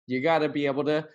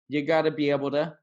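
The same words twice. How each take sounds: First: The words are shrunk and blended into one stream. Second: The words are shrunk and blended into one stream.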